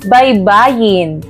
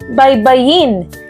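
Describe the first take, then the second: First: The stress falls on the second-to-last syllable. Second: The stress falls on the last syllable. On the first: The shore or bank of a river or sea. "kung ito ay ating bibigkasin ng dahan-dahan" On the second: To spell out the letters of a word in order. "ito ay nasa diing mabilis"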